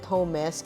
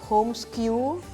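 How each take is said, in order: First: The name ends with an 'esk' sound. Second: The name ends with an 'oo' sound. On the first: The speaker calls it right. "for us we call it Homes" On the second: The speaker calls it wrong. "a lot of people actually mispronounce. Some call it homeskew"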